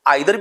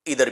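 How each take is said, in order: First: The first vowel sounds like 'eye'. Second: The first vowel sounds like 'ee'. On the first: "इसको आइदर भी बोलते हैं" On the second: "और इधर भी बोलते हैं"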